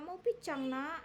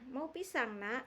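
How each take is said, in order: First: The s in pisang becomes a childish ch sound. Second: The s in pisang is said as a clear s. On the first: The adult copies the child's mistaken pronunciation. The speaker calls it wrong. "Nah itu ikut-ikutan orang tua namanya" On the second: The adult gently models the correct pronunciation. The speaker calls it right. "wah ini bukan picang tapi pisang"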